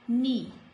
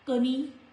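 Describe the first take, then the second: First: The word starts directly with the N sound. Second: The K sound is pronounced before the N. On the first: The speaker calls it right. "K is silent, no sound" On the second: The speaker calls it wrong. "this is not knee"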